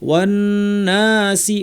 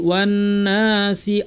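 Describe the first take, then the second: No difference in how they are said.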